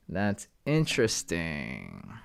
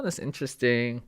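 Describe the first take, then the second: First: Slow and low, softer; slow, low musing. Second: Said in the usual way. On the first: Real, not acted. Streamer pondering a chart, slow low murmur. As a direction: draw it out slowly, lower and softer. Muses on chart, says it twice.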